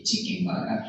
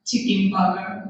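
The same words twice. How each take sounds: First: Flat Japanese-accented "chicken burger"; Japanese English accent. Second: Said in the usual way. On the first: Shown as a demonstration. Teacher showing what locals say, Japanese English accent. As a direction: say "chicken burger" quickly and evenly, Japanese style. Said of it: "English accent is really flat". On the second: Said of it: "we say chicken burger".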